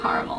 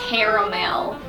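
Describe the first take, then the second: First: It is said with a Canadian pronunciation. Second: It is said with a Southern pronunciation. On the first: The speaker calls it right. "how I say caramel" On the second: The speaker calls it wrong. "I don't like saying caramel"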